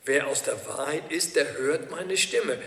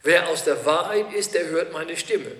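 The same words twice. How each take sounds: First: Preacher repeats Jesus' words to the congregation, slower and softer; slower, quieter repeat. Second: Said in the usual way. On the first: Shown as a demonstration. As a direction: repeat the key verse slowly and softly so it sinks in, slowing on "Stimme". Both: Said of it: "Ein ganz wichtiger Satz".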